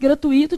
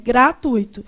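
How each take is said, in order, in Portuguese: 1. A tonicidade cai na sílaba 'i'. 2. A tonicidade cai na sílaba 'tu'. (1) "Se fosse gratuito, tinha um acento onde? No i" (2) "É gratuito"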